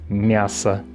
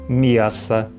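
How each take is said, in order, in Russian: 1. После «м» лишнего глайда нет. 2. После «м» идёт лишний y-глайд. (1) "вместо «мясо»" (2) "возникает ненужный в данном случае мягкий знак"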